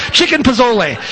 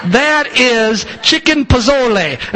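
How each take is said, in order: First: Said in the usual way. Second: Slow, drawn-out Italian accent. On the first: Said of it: "I don't know how to make a Spanish accent". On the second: Shown as a demonstration. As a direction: roll chicken pozole like an Italian. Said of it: "I say that's Italian accent".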